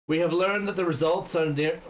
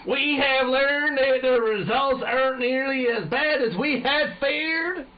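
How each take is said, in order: First: Lightly put-on British accent, raised pitch. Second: High, loud, drawn-out American general; exaggerated American accent. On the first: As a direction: read the general with a touch of British. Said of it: "doing this in a British accent". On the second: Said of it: "It's a fucking American".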